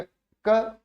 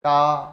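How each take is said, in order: First: क cut short, just one beat; short vowel. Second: का drawn out on a steady long vowel. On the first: Teacher demonstrates vowel length to students, short क. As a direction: say क with a brief short a. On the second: Teacher demonstrates vowel length to students, long held का. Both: Shown as a demonstration. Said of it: "किसी मात्रा को कम या ज्यादा बोलना".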